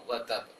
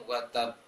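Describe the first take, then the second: The two takes are said the same way.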